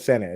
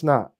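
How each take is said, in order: First: The name is said with two syllables. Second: The name is squeezed into one syllable. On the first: The speaker calls it right. "is actually" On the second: The speaker calls it wrong. "you got me saying it wrong now"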